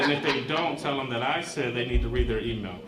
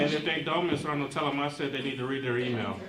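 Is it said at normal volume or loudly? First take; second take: loudly; normal volume. First: It is said more loudly. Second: It is said at normal volume.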